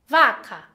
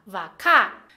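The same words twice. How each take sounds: First: "vaca" with stress on VA, falling away on "ca"; stress on first syllable. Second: "vacá" with the stress moved onto "cá"; stress on last syllable. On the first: Teacher contrasting word intonation, stress on first syllable. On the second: Teacher contrasting word intonation, stress on last syllable. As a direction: punch the final syllable of "vacá", dropping in tone. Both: Shown as a demonstration. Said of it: "atenção na entonação como a pessoa fala".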